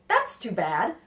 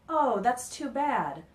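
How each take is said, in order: First: It is said in a happy, cheerful tone. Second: It is said in a sad, falling tone.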